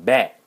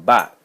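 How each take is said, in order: First: "bat" said loud and set apart, with a front a vowel; "bat" with a flatter a, clearly louder; corrected pronunciation. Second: "bot" said loud and set apart, with an open ah vowel; "bot" with a broad ah, clearly louder; own pronunciation. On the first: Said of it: "she was correcting me. She was saying". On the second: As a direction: punch out "bot" as the learner's version, vowel as in father. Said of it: "like, I was saying". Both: Shown as a demonstration.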